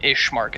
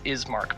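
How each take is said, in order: First: The name has an 'sh' sound before the m. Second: The name has an 's' sound before the m. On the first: The speaker calls it wrong. "I keep calling it Ishmark" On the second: The speaker calls it right. "It's Ismark"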